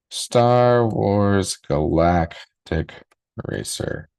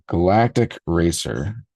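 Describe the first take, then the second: First: Star Wars Galactic drawn out very slowly, Racer breathed; savouring the title slowly; slow dramatic title. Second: Said in the usual way. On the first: Acted. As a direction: stretch the title out like a trailer voice.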